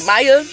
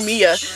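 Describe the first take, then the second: First: The first vowel sounds like 'eye'. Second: The first vowel sounds like 'ee'. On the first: The speaker calls it right. "Maya's the easiest American name you could ever say" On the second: The speaker calls it wrong. "They kept calling her Mia"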